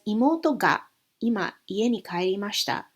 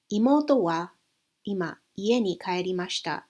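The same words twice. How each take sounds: First: Imoto gently pushed forward; stress on Imoto. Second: Said in the usual way. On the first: Shown as a demonstration. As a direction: lean on Imoto. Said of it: "that's emphasizing imoto". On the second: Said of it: "When imoto is simply a general topic".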